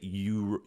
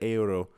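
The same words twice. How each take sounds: First: The opening vowels blend into one gliding sound. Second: The opening e and u are sounded separately. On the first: "We, we just say euro" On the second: "they pronounce the e and the u, so it's like euro"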